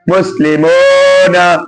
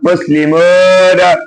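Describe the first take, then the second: First: The vowel before 'na' is an 'oh' sound. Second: The vowel before 'na' is an 'oh' sound.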